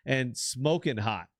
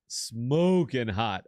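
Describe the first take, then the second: First: Said in the usual way. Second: Smoking hot drawn out slow and louder; drawn out emphasis. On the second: Real, not acted. To his cohost about the actress, smoking hot drawn out slow. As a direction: lean into smoking hot and savour it.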